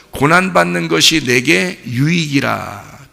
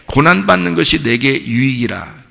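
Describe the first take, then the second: First: Slow, deliberate scripture reading, stress on 고난받는; slow solemn quote. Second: Said in the usual way. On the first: Shown as a demonstration. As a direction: read it slowly, weighing each word. (천천히 엄숙하게 읽는 성경 구절)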